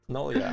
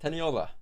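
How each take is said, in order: First: The name is said as ten-oh-lee-a. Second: The name is said as ten-ee-oh-la. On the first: The speaker calls it wrong. "I say Tenolia sometimes" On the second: The speaker calls it right. "but it's Teniola"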